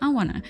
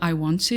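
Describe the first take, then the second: First: Want to is reduced and blended into wanna. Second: Want to is said fully as separate words. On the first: "you can say" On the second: "Instead of"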